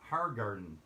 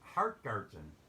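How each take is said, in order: First: No T sound is said before the G. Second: A T sound is said before the G. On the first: The speaker calls it right. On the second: The speaker calls it wrong. "No T. There's only one T"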